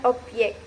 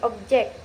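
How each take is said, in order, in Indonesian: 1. Konsonan tengah terdengar seperti y. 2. Konsonan tengah terdengar seperti b. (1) "bukan objek" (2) "pengucapan sesuai kaidah. Contohnya seperti objek"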